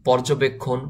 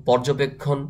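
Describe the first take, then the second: No difference in how they are said.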